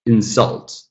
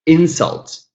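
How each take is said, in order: First: "Insult" as in-SULT; the verb insult, end-stressed; second-syllable stress. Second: "Insult" as IN-sult, pitched high; the noun insult, front-stressed; first-syllable stress. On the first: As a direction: hit the final syllable of Insult. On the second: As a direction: hit the opening syllable of Insult. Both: Shown as a demonstration.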